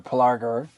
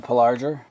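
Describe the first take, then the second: First: Pelargir with a hard G. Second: Pelargir with a soft G, like J. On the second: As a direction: say the G in Pelargir as in "gem". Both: Shown as a demonstration. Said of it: "is the G hard or soft".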